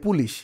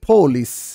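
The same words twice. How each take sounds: First: The word starts with a plain p, Bengali style. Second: The word starts with an aspirated p, English style. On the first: It is the local Bengali form of the word. The speaker calls it wrong. "এই পুলিশ এটা কিন্তু বাংলা শব্দ" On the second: It is the foreign English form of the word. The speaker calls it right. "ইংরেজি শব্দটা কি হবে?"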